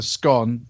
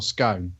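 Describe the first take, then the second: First: "scone" rhyming with gone; short rounded vowel in "scone". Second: "scone" rhyming with bone; drawn-out oh vowel in "scone"; long-o scone. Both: Shown as a demonstration. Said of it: "it's either scone or scone".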